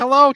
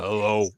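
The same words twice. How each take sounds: First: The voice is high and squeaky. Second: The voice is low and deep. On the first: This is how he sounded before puberty. "He was he had a pretty squeaky voice" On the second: This is how he sounded after puberty. "it was like overnight his voice changed"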